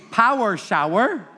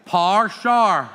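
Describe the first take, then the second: First: "power shower" as "pow-er show-er", two syllables each; standard power shower. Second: "power shower" squeezed to "par shar"; Belfast power shower. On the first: Teacher quotes the audience, full-vowelled "power shower". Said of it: "So you would say". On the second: Teacher imitates someone in Belfast, "par shar" for power shower. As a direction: slowly say "power shower" as "parr sharr". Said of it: "somebody in Belfast, they'd say". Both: Shown as a demonstration.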